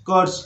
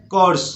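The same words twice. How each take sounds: The two takes are said the same way.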